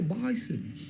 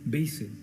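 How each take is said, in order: First: The first vowel sounds like 'eye'. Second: The first vowel sounds like 'ay'.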